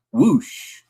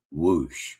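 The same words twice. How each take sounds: First: High rising whoosh; quick airy whoosh lifting up at the end; imitated whoosh. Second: Low falling whoosh; imitated whoosh. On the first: Host mimicking caller's three things to say, high whoosh. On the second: Host mimicking caller's last thing to say, low whoosh. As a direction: drop the whoosh way down in pitch.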